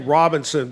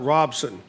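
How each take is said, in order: First: The name is said in its full form. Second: The name is said in a shortened form. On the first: This is how outsiders say it. "you say Robinson" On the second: This is how locals say it. "but locals call it Robson"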